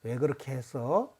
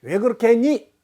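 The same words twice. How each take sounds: First: Low, hushed, gentle question; much softer and lower, kindly asking. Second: 했니 pitched up high and loud; louder, higher question with a hard 했니; harsh questioning tone. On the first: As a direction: ask it gently, voice dropped low. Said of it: "어, 부드럽지요?". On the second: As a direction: demand it, pushing 했니 up and hard. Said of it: "목소리 톤을 바꾸기 위해서는 말의 끝을 내려보는". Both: Shown as a demonstration.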